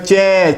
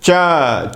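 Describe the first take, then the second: First: The vowel after ch sounds like e. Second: The vowel after ch sounds like a. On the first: This is how it is said in the west, around Delhi. "जैसे दिल्ली वगैरह में चे" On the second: This is how it is said in Bihar. "Bihar वगैरह में जो अच्छे जानकार हैं वे बिल्कुल वर्टिकल प्रोनाउंसिएशन करते हैं"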